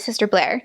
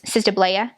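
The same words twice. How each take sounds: First: The name is said in her normal accent. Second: The name is said in a Rhode Island accent.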